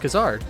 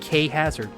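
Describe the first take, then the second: First: The name is said as one smooth word. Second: The name is split into a letter and a word. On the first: The speaker calls it right. "it's Kazard" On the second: The speaker calls it wrong. "how many people are like K Hazard"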